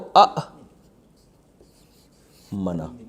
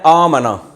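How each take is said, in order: First: The first vowel is short, followed by a stop. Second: The first vowel is long, with no stop. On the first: This is the original, hard-to-say form. "जैसे असलमा है ना, तो अ मना। अब अ मना कितना मुश्किल है" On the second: This is the easier form people actually say. "तो इसको पढ़ते क्या है, आ मना"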